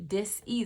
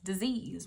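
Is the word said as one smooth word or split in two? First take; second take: split; one word. First: It is split into two parts with a break. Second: It is said as one smooth word. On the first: It means a disruption in natural energetic flow. "D I S dash E A S E" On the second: It means an illness. "where we're used to hearing that word pronounced as disease"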